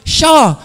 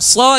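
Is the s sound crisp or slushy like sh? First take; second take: slushy; crisp. First: The s sound is slushy, like sh. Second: The s sound is crisp and clear. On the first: Teeth are missing, so the tongue lacks support. The speaker calls it wrong. "jadi sho ... Karena hilang gitu ya" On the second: The teeth are intact. The speaker calls it right. "bilang so"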